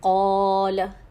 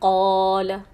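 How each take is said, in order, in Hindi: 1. स्वर को दो हरकत तक खींचा जाता है। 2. स्वर को दो हरकत तक खींचा जाता है।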